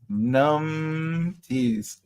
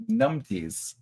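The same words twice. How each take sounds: First: "Numpties" stretched out, lingering on the first syllable; savouring the word. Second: Said in the usual way. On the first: Shown as a demonstration. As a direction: draw out "Numpties" slowly. Repeats the word, drawing it out.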